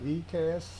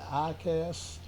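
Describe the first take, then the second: First: The first sound is "ee". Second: The first sound is "eye". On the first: "I call it E C A S" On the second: "Some people pronounce it I C A S"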